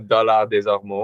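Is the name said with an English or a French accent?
French. The name is said with a French accent. "how's the French accent? Can you do it properly for us?"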